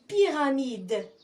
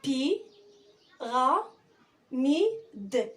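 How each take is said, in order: First: Said in the usual way. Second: "Pi, ra, mi, d" with a clear pause after each part; "Pi, ra, mi, d" as separate, held syllables. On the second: Shown as a demonstration. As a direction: sound out "Pi, ra, mi, d" piece by piece. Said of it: "أنطق الأجزاء".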